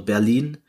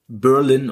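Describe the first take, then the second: First: The name is pronounced the German way. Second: The name is pronounced the English way.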